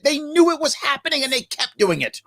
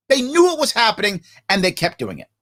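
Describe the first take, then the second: First: High, strained, upset insistence; emotional, bothered. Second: Restrained, deliberate repeat of an upset point; controlled insistence. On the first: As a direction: pitch pushed way up in real distress. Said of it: "So I'm emotional because I'm bothered by it". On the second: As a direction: bring the pitch down and land each half separately. Repeats outburst with more control. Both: Real, not acted.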